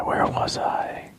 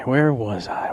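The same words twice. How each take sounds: First: Slow, unvoiced and softer; slow eerie whisper. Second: Mock whisper. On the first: Host echoes himself as a spooky whisper. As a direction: breathe it out slowly like a ghost. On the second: Host repeats line whispered.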